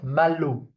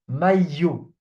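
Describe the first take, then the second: First: The middle consonant is an L sound. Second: The middle consonant is a Y sound. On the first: The speaker calls it wrong. "Not malo" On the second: The speaker calls it right. "when we have an I before two L's, it's pronounced you"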